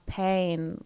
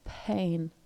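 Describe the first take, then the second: First: The vowel starts right after the p. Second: A puff of breath comes before the vowel. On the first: "where the vowel hits straight after the p" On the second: "but pain"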